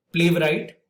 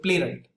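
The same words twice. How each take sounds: First: "playwright" with the W sounded, play-v-right; mispronounced playwright. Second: "playwright" with a silent W, play-right; correct playwright. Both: Shown as a demonstration. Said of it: "the W is silent over here".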